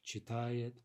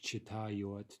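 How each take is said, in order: First: The stress stays on the stem, with a ye sound. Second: The stress falls on the ending, with a yo sound. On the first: The speaker calls it right. "Stem stress" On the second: The speaker calls it wrong. "we don't say chitayos, chitayot"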